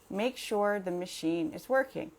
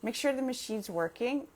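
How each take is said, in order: First: The sentence is said slowly, each word separate. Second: The sentence is said fast, words run together. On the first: "if I say it slowly" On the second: "if I say that fast"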